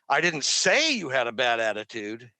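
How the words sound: The stress falls on the word you.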